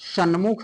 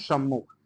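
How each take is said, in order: First: The middle consonant is pronounced as n. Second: The middle consonant is pronounced as m. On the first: The speaker calls it wrong. "सन्मुख नहीं" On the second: The speaker calls it right. "सम्मुख होता है दोस्तों"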